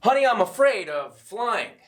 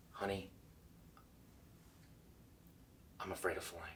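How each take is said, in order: First: Loud, high announced line; bad acting. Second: Hushed, soft confession with pauses; like a secret. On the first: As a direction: declare it out loud like news. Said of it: "here's the difference". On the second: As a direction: share it as a secret. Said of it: "deliver it like it's a secret". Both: Shown as a demonstration.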